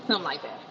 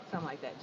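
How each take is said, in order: First: Said in the usual way. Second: Much softer trailing repeat; fading throwaway echo; muttered echo. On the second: Real, not acted. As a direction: say it under the breath. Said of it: "much softer repeat".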